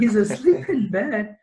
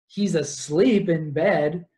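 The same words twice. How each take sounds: First: High, slow "asleep in bed"; exaggerated incredulous repeat. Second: Slow, drawn-out "asleep in bed"; pointed storytelling. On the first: Repeats it after incredulous aside. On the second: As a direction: tell "asleep in bed" slowly, at near-usual pitch. First telling, before incredulous aside. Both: Real, not acted.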